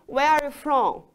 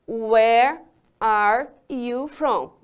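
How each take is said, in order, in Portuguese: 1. A frase é falada um pouco mais rápido. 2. A frase é falada bem devagar. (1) "Mais rápido um pouco" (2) "Vou falar bem devagarzinho"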